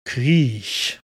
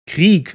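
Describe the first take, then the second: First: The word is said in Cologne dialect. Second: The word is said in standard German. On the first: "in Cologne tongue ... you pronounce it a little cooler. You call it Griech" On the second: "if you want to say Krieg"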